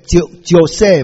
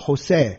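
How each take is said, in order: First: The name begins with a J sound. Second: The name begins with an H sound. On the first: The speaker calls it wrong. "不能念乔塞嘛" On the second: The speaker calls it right. "Jose 那个J 是念H 嘛"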